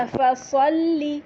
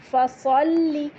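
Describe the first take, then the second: First: فصلی with a heavy saad and held doubled lam, slow. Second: Said in the usual way. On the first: Shown as a demonstration. (فصلی میں موٹا صاد) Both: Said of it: "صاد موٹا ہوگا".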